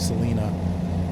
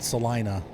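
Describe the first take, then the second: First: The i is said like ee. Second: The i is said like eye. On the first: This is how people there say it. "It's probably Salina" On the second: This is how people in Ohio say it. "In Ohio, we call it Salina because everything in Ohio is hard eyes"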